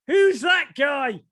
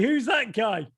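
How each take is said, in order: First: High, loud, drawn-out mock shout; shouted question. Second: Slightly raised attempt at an American accent. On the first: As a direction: call it out like an amazed relative, pitched way up. Descendant pointing at headshot, acted. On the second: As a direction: try a half-hearted American accent, without shouting. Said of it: "say it in an American accent".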